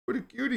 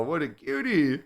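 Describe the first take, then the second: First: High, soft cooing at a pet. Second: Said in the usual way. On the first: Real, not acted. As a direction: coo it like to a kitten. Cooing at the cat.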